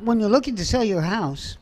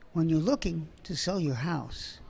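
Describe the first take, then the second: First: It is said fast. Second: It is said slowly and stretched.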